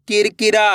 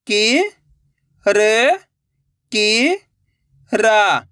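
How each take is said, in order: First: Said in the usual way. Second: कि, र, कि drawn out and rising, रा falling; syllable by syllable. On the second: Shown as a demonstration. Teacher breaking a word for learners, syllable by syllable. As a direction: sound out कि, र, कि, रा singly. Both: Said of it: "एक अक्षर का उच्चारण करके".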